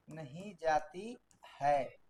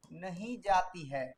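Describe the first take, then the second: First: Very slow, softer, lower dictation; dictating the sentence again, slower and quieter; slower softer repeat. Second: Slow, spelled-out dictation pace. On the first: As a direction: repeat it slowly so they can write. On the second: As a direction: read it slowly for students to write. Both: Shown as a demonstration. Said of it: "practice के लिए sentence लेते हैं".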